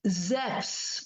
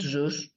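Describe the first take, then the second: First: The vowel letters are said as 'ef'. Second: The vowel letters are said as 'oo'. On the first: The speaker calls it right. "The the E U is called F" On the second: The speaker calls it wrong. "not U"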